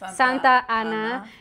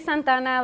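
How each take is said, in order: First: The name is said as two separate words. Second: The name is run together as one word. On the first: The speaker calls it right. "it's two words" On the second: The speaker calls it wrong. "And I say Santana like a one word"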